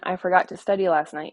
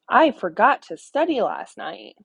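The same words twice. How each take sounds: First: It is said calmly, as a plain statement. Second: It is said excitedly, as an exclamation.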